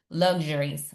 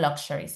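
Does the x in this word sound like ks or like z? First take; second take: z; ks. First: The x sounds like a z. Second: The x sounds like ks. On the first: The speaker calls it right. "this X is pronounced like z" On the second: The speaker calls it wrong. "not luxuries"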